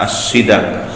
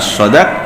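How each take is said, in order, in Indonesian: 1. Vokal pertama adalah bunyi 'i'. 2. Vokal pertama adalah bunyi 'a'. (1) "bisa dibaca kasrah sodnya" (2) "bisa dibaca fathah"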